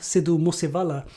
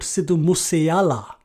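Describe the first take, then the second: First: The surname is said with a clear v sound. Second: The surname is said without a v sound. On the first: The speaker is reading the name as written. The speaker calls it wrong. "you know that they're not paying attention" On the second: This is the slang way locals say it. The speaker calls it right. "he probably preferred to be called"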